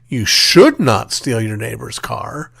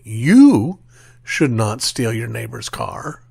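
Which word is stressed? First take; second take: should; you. First: The word "should" carries the stress. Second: The word "you" carries the stress. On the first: The listener might steal it anyway. "we are implicitly suggesting that you might do it anyway" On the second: Someone else may be allowed to steal the car. "someone might suggest that we're affirming that someone else has the uh, authority to steal your neighbor's car"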